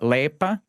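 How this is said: It is said the Serbian way, lepa.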